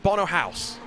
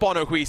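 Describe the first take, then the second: First: The surname sounds like the word 'house'. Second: The surname does not sound like 'house'. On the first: The speaker calls it right. "It's Bono House" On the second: The speaker calls it wrong. "It's not Bono Huis"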